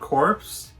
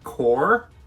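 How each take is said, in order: First: The word ends with a 'ps' sound. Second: The word ends without a 'ps' sound. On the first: The speaker calls it wrong. "It is not corpse" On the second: The speaker calls it right. "it is core"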